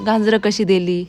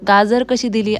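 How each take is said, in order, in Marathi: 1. शब्दातील पहिला स्वर अनुनासिक आहे. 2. शब्दातील पहिला स्वर साधा आहे. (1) "तिथे तुम्हाला असंच बोललेलं दिसणार" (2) "असं नाही एवढं स्पष्ट बोललं जात"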